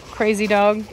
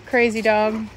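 The two takes are said the same way.

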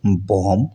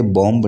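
First: बॉम्ब said bom, the b dropped; बॉम्ब with no b sound at the end; silent b. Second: बॉम्ब said bomb, the final b sounded; बॉम्ब with a clear b at the end; wrong b sounded. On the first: Teacher shows बॉम्ब said bom, silent b. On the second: Teacher shows the wrong बॉम्ब, b pronounced. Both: Shown as a demonstration. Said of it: "इसे बॉम्ब नहीं पढ़ा जाना चाहिए".

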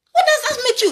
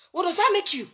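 First: "What" hit high and loud; louder, higher challenge. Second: Said in the usual way. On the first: Real, not acted. Preacher challenging his critics, loud and high. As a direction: throw the question at them hard.

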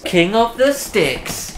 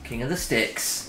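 First: Drawn out, higher announcer call. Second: Said in the usual way. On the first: Acted. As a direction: boom it like a game show host. Dramatic announcer repeat.

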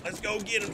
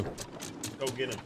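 First: Said in the usual way. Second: Slow, softer plotting; softly plotting to go after a solo player; quiet scheming. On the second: Real, not acted. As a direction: murmur the plan to yourself.

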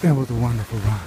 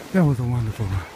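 The two takes are said the same way.

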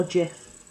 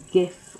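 First: Gif as "jif"; gif with soft G. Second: Gif with G as in "gift"; gif with hard G. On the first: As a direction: say "gif" starting with a J sound. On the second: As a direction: say "gif" starting like "give". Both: Shown as a demonstration. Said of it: "gif or gif".

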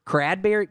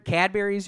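First: "Cradberry" with an r slipped in after the C; mispronounced Cadbury's. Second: Said in the usual way. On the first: Shown as a demonstration. Comic muddling the candy's name, "Cradberry" with an added r. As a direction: say "Cradberry" as crad-berry. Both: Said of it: "you mean?".

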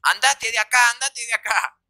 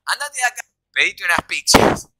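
First: Imitating an angry mother kicking him out; raised, higher-pitched mock outrage; furious mother. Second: Imitating the mother in the false version; higher-pitched quote, louder on the last words; mock order that turns to pizzas; the made-up version. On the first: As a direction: order him out like a fed-up mother. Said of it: "re caliente la vieja". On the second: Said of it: "la mentira es que dijo".

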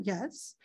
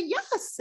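First: Low-key, softer yes; hushed little yes; quiet acknowledging yes. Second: High-pitched, lilting yes; modeled yes, pitched high; demonstrated high yes. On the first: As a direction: say yes softly, just acknowledging it. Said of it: "acknowledge it". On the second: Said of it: "so you can say". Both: Shown as a demonstration.

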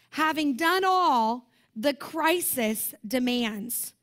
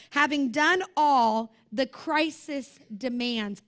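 First: "Having done all the crisis demands" repetido muy despacio; slow emphatic repeat. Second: "having done all the crisis demands" dicho muy despacio, cada palabra marcada; slow emphatic read. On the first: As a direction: lean on every word, slowly. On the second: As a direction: savor each word, slowly and deliberately. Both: Shown as a demonstration. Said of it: "I love how the Amplified puts that".

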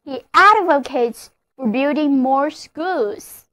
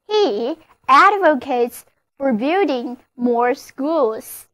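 First: Said in the usual way. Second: Slowed-down example sentence, every word clear; slow model reading. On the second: Shown as a demonstration. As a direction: read it slowly for learners to copy. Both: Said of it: "例如这个句子".

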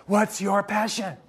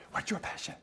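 First: Drawn-out, teasing delivery of the question; slow mock question. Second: Breathy, hushed whisper of the question; mock whisper. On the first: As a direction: stretch it out like a cliché. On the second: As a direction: whisper it like a secret. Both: Mocking the clichéd passion question.

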